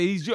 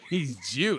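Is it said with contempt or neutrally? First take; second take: neutrally; contempt. First: It is said in a plain, neutral tone. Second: It is said with a sneering, contemptuous tone.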